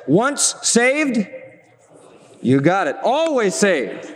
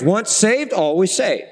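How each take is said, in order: First: Slow, drawn-out slogan as once heard; mock folksy catchphrase; old catchphrase. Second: Said in the usual way. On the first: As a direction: intone it like a remembered saying. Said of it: "I used to hear it this way". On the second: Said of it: "that's a common phrase".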